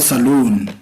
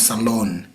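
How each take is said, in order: First: The second vowel is a long oo sound. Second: The second vowel is a short o sound. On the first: This is how people say it locally. The speaker calls it wrong. "We call it saloon. It's the pronunciation" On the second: This is the standard pronunciation. The speaker calls it right. "the right pronunciation is salon"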